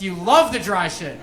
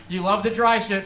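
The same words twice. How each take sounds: First: LOVE punched with a pitch jump; stress on LOVE. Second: Said in the usual way. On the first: Real, not acted. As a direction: lean hard on "love", then fall away. Repeat punches the word love.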